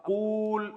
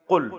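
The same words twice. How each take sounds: First: قول held long as qooool; long drawn-out vowel. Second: قل cut short, quick u; short vowel. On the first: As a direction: stretch the oo in قول slowly. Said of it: "اتنا لمبا ہے". (قول کو لمبا کھینچ کر) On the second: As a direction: say قل briefly, with no lengthened vowel. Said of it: "قول کو شارٹ کر کے". (قل مختصر پیش کے ساتھ) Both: Shown as a demonstration.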